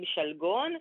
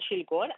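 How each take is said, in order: First: The first vowel is an 'e' sound. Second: The first vowel is an 'i' sound. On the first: This is the form people commonly say. "אנשים אומרים שלגון" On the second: This is the standard, prescribed form. "אז גם כל מילה שנגזרת ממנה תקבל חיריק, ולכן שלגון"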